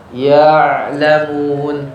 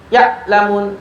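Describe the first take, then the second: First: The ain is partly held and partly flowing. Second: The ain is fully stopped like a glottal stop. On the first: The speaker calls it right. "Itu namanya bainiyah ya, tawassutnya tadi" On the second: The speaker calls it wrong. "Tertahan semuanya juga sah? Salah. Ini kedengarannya hamzah jadinya"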